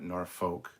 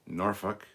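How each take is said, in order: First: It is pronounced the American way. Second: It is pronounced the British way. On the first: The speaker calls it wrong. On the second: The speaker calls it right.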